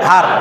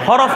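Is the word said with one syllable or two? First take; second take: one; two. First: It is said with one syllable. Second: It is said with two syllables. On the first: The speaker calls it right. "না হার্ফ" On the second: The speaker calls it wrong. "হরফ না"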